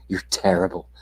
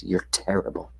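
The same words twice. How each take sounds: First: Said in the usual way. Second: Whispered insult. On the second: Acted.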